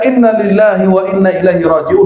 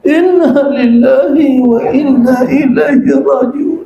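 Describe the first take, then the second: First: It is said in a firm, assertive tone. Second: It is said in a mournful, wailing tone.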